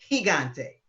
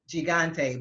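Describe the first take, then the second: First: The first g sounds like an h. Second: The first g is a hard g sound. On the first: The speaker calls it right. "but it's" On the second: The speaker calls it wrong. "one of your big entertainers was pronouncing it gigante"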